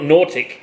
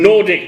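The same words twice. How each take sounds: First: The middle consonant sounds like a T. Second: The middle consonant is a clear D sound. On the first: The speaker calls it wrong. "not Nordic" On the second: The speaker calls it right.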